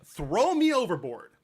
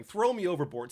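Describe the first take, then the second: First: Slow, louder, theatrical "throw me overboard"; dramatic offer. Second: Said in the usual way. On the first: Retold or imitated. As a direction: play it like a grand self-sacrifice. Jonah dramatically volunteers.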